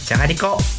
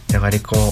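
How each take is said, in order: First: The word is said in a happy tone. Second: The word is said in a sad tone. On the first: "嬉しくて" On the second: "悲しくて"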